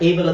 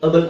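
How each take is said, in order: First: The vowel sounds like 'ay'. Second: The vowel sounds like 'uh'. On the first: The speaker calls it wrong. "ಏಬಲ್ ಅಂತ ಓದಬಾರ್ದು" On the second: The speaker calls it right. "ಅಬಲ್ ಅಂತ ಓದಬೇಕು"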